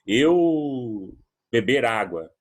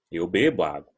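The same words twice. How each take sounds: First: "Eu beber água" said slowly, word by word; mock wrong grammar. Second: Said in the usual way. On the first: Shown as a demonstration. Teacher shows the form students should avoid, slow and deliberate. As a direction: drag out the wrong form as a bad example. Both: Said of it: "Não vou falar assim".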